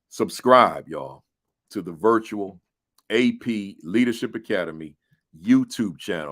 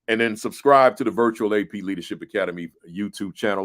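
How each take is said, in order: First: It is said more slowly. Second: It is said at a normal pace.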